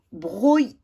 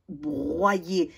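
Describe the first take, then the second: First: BROYER split as bro-yé; plain O sound. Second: BROYER said brwa-yé. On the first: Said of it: "Est-ce que ce O, je vais le prononcer". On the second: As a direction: say BROYER with OY sounded wa-y. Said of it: "je vais le prononcer". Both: Shown as a demonstration.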